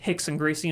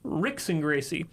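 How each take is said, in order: First: The name begins with an H-like sound. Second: The name begins with an English R sound. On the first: This is how the name is said in Portuguese. "Portuguese pronounce the R's like an H" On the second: This is how the name reads as written. "his name says Rickson Gracie"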